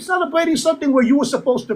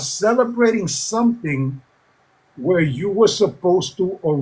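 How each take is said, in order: First: The phrase is spoken at a normal pace. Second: The phrase is spoken slowly and deliberately.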